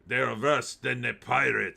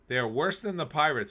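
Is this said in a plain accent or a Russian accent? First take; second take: Russian; plain. First: It is said in a put-on Russian accent. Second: It is said in the speaker's normal accent.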